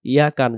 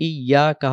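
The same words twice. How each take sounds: First: "ইয়াকার" as quick yaka, no opening i; wrong short form. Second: "ইয়াকা" as iy-yaa-ka; correct doubled Y. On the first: Teacher warning against the mistake, "ইয়াকার" as short yaka. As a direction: drop the doubled y in "ইয়াকার". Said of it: "যেন না হয়". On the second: Teacher giving the correction, "ইয়াকা" with doubled y. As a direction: lean on ই before ইয়া in "ইয়াকা". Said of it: "হবে". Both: Shown as a demonstration.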